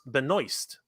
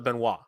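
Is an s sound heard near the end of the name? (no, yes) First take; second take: yes; no. First: The name has an s sound near the end. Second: The name ends without an s sound. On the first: The speaker calls it right. "her name is pronounced Benoist" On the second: The speaker calls it wrong. "that's how I read that"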